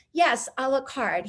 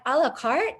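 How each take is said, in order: First: "a la carte" slow with a falling end; confirming. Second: "A la carte" rising as a question. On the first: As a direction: confirm "a la carte" slowly, closing it downward. Retold his confirming answer. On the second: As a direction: ask "A la carte" back with a lifted ending. Retold puzzled question to him. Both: Retold or imitated.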